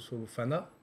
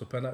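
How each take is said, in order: First: The middle consonant is an f sound. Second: The middle consonant is a p sound. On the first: The speaker calls it wrong. "ça se prononce pas So- Sofana" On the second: The speaker calls it right. "ça se prononce Sopana"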